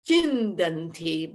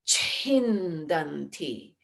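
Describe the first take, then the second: First: The first consonant has no added breath. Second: The first consonant has a strong added breath. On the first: The speaker calls it wrong. "it's not chindanti" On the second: The speaker calls it right. "there's a breath added to it, a mahaprana"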